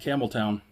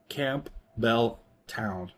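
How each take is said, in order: First: The name is said quickly, run together. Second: The name is said slowly, parts kept apart.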